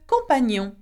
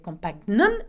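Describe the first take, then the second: First: The gn is said as a single ny sound. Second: The gn is said as separate g and n sounds. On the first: The speaker calls it right. "it's ni, on" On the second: The speaker calls it wrong. "we don't say compagnon"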